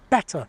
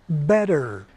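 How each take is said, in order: First: The middle t is a crisp, clear t. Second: The middle t is a quick, soft flap. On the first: This is the old theatre-style pronunciation. "it resisted T flapping, so we had pronunciations like better" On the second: This is the usual American pronunciation. "instead of better"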